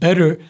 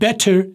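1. T की आवाज़ American तरीके से R जैसी हो जाती है। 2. T की आवाज़ ब्रिटिश तरीके से साफ़ और ज़ोर से निकलती है। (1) "टी की आवाज़ आर में कन्वर्ट हो जाएगी ... अमेरिकन इंग्लिश" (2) "ये ब्रिटिश साइड है। टी की आवाज़ अगर फट गई"

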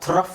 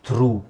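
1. ಈ ಪದ ಚಿಕ್ಕ ಸ್ವರ ಮತ್ತು f ನಲ್ಲಿ ಮುಗಿಯುತ್ತದೆ. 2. ಈ ಪದ ದೀರ್ಘ oo ಸ್ವರದಲ್ಲಿ ಮುಗಿಯುತ್ತದೆ. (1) "ಥ್ರಫ್ ಅಂತ ಹೇಳೋಕ್ಕಾಗುತ್ತಾ? ನೋ" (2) "ಅಲ್ಲಿ ಏನು ಹೇಳಬೇಕು? ಥ್ರೂ"

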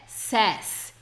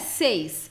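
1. A vogal é um som curto de e. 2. A vogal é um som longo de ay. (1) "é says" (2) "Não é seis"

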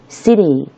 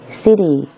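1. 中间的 t 听起来像轻柔的 d。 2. 中间的 t 听起来像轻柔的 d。

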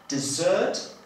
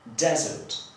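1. Akcent pada na drugą sylabę. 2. Akcent pada na pierwszą sylabę. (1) "Będziemy akcentować drugą sylabę" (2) "będziemy akcentować pierwszą sylabę"

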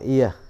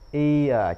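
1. Nguyên âm được gộp thành một âm duy nhất. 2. Nguyên âm lướt rõ ràng qua hai âm riêng biệt. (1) "chứ không đọc là ear" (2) "chúng ta nên rõ rõ từ ear"

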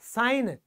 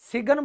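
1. इस शब्द में g साइलेंट है। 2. इस शब्द में g की आवाज़ बोली जाती है। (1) "ये होगा साइन" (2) "सिगन नहीं होगा, गलत होगा"

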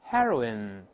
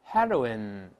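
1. 第一个元音是短的 'eh' 音。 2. 第一个元音是短的 'eh' 音。

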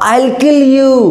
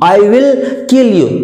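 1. I और will मिलकर एक ही अक्षर बन जाते हैं, I'll। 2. I और will दो पूरे शब्दों की तरह बोले जाते हैं। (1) "आप बोलने वाले आइल, ये साउंड आना चाहिए" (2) "आई विल बोलने के बजाय आइल यूज कीजिए"

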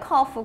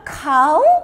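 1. cuff처럼 발음해요. f로 끝나요. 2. cow처럼 발음해요. ow로 끝나요. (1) "이건 커프야" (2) "또 카우로 읽어요"

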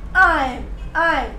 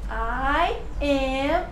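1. As palavras se juntam em uma sílaba curta. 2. Duas palavras separadas são ditas por extenso. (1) "A pessoa vai falar I'm" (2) "Dificilmente você vai ver alguém falando I am"

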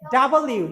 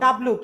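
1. অক্ষরের নামটি পুরোটা 'double you' হিসেবে বলা হয়। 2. অক্ষরের নামটি ছোট করে 'dubloo' হিসেবে বলা হয়। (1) "ডাবল ইউ, not ডাব্লু" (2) "not ডাব্লু"

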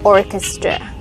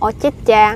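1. Trọng âm nằm ở âm tiết thứ nhất. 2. Trọng âm nằm ở âm tiết thứ hai. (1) "Mình đọc âm 1" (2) "Những âm hai á, các bạn đọc thành orchestra"

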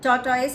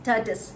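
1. చివరి syllable 'toys' లాగా వినిపిస్తుంది. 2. చివరి సిలబుల్ 'tus' లాగా వినిపిస్తుంది. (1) "టాటాయిస్ అని ప్రొనౌన్స్ చేశాను" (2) "కరెక్ట్ ప్రొనౌన్సియేషన్ ఎస్ టర్టస్"

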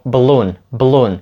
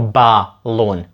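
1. Між B і L майже не чутно жодного голосного. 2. Голосний між B і L вимовляється повністю. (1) "ніби там немає нічого між B і L" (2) "Ми не кажемо balloon"

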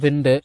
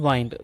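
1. உயிரெழுத்து குறுகியது, 'win' போல. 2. உயிரெழுத்து நீண்டது, 'wine' போல. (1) "பிரிட்டிஷ் இங்கிலீஷில் விண்டு" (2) "அமெரிக்கன் இங்கிலீஷில் வைண்ட்"

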